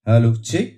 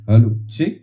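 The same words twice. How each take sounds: First: The high frequencies are boosted. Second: The low bass frequencies are boosted. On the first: "আমরা কিছুটা boost করব হাইটাকে।" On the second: "তো last হচ্ছে লো বেস।"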